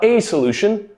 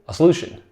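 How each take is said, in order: First: The article is said as a full 'ay'. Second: The article is said as a weak 'uh'. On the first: The speaker calls it wrong. "We rarely say a in natural English" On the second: The speaker calls it right. "softened a lot to more of an uh"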